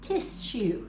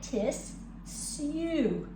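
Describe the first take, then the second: First: One quick word with an SH sound. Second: Two separate syllables with a plain S sound. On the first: "When you say it quickly, though, it comes together as tissue" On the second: "it sounds like tis, sue"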